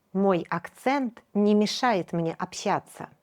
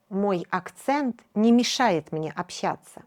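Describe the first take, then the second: No difference in how they are said.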